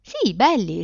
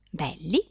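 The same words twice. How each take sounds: First: "belli" confirmed with a falling tune; emphatic "Sì", then "belli" falling as a statement; firm repetition. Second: BELLI as a quiet rising question; "belli" asked back, unsure; puzzled question. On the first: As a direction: answer "Sì, belli" higher, landing it firmly. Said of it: "ripeté la bambina". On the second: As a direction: echo "belli" questioningly, voice lifting at the end. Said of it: "chiese la donna". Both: A narrator's reading.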